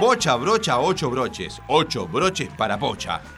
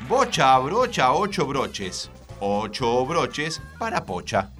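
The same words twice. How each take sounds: First: It is said at a faster pace. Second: It is said at a slower, normal pace.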